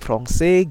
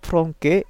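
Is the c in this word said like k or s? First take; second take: s; k. First: The c is said with an s sound. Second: The c is said with a k sound. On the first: The word is read with its cedilla. The speaker calls it right. "ditambah menggunakan aksen sedi" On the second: The word is read as if it had no cedilla. The speaker calls it wrong. "kalau misal tidak ada aksen sedinya, kita ucapkannya"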